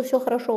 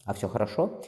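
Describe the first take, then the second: First: Said in the usual way. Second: ХОРОШО lifted into a questioning rise; probing question. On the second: A narrator's reading. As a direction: ask "хорошо" doubtfully, ending on a rise. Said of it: "испытующе взглянул на неё Хосе". (испытующе, с вопросом на «хорошо»)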